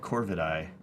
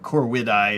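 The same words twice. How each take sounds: First: The middle consonant is said as a v. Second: The middle consonant is said as a w.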